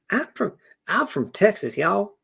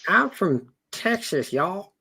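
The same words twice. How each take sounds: First: High Texan twang, rising on y'all; Southern accent, pitched up; bolder Southern accent. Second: High, slow Texan drawl on y'all; a first shaky go at a Southern accent; Southern twang, high and slow; trying a Southern accent. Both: Acted. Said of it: "trying on this Southern accent".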